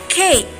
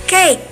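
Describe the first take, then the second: The two takes are said the same way.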